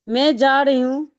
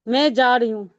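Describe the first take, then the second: Both takes have the same delivery.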